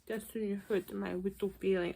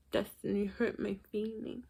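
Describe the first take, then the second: First: Soft mock hurt pout; mock sad. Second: Mock sad. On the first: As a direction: whine it like a sulking child. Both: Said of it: "mock Sean".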